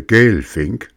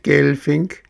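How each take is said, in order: First: Said in the usual way. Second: "Gelfink" squeaked high, rising at the end; a teasing shriek from a tiny voice. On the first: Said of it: "Seppel hörte Gelfink". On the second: A narrator's reading. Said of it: "kreischte ein feines Stimmchen".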